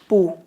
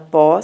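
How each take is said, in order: First: The vowel is a u sound. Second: The vowel is an open o sound. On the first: The speaker calls it wrong. "você não vai falar pu" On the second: The speaker calls it right. "mas se falar pó"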